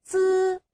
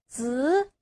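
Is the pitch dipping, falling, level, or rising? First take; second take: level; rising. First: The pitch stays high and level. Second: The pitch rises from mid to high.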